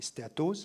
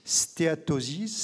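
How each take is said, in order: First: Said in the usual way. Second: Stéatosis said as the English word, slowly, with a rising end; Stéatosis given its English sounds, drawn out and lifted at the end; English term. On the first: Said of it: "c'est stéatose". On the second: Shown as a demonstration. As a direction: spell out Stéatosis in English, slow and careful. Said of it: "l'abréviation d'un terme anglais".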